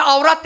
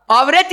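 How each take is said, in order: First: "avrat" with a thick, dark R and an open back a. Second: "Avret" said slowly with a light, thin R and a front e. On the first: Preacher contrasting avrat with avret, thick R. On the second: Preacher explaining the proper word, slow and light. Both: Shown as a demonstration. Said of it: "R'yi biraz kalın okursan avrat oluyor".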